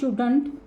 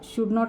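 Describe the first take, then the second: First: It is said as one contracted word. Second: It is said as two full separate words. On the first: "बोलताना आपण त्याचं contraction form वापरतो" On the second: "शुड नॉट ऐवजी"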